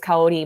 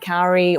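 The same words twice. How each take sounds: First: The name is said with a Japanese pronunciation. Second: The name is said with an English pronunciation. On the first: "my name in Japanese" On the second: "I honestly don't mind Kaori"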